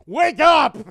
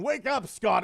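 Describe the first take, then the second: First: Loud, high wake-up yell. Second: Said in the usual way. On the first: Retold or imitated. Kid yelling to wake his brother, loud. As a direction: bark him awake from sleep. Waking someone to watch TV.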